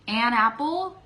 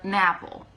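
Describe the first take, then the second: First: The n stays separate from apple. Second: The n runs into apple as one word.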